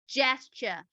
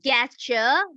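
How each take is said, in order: First: The word begins with a j sound. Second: The word begins with a hard g sound. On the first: The speaker calls it right. "the j sound instead of g sound" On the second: The speaker calls it wrong. "it is not gesture"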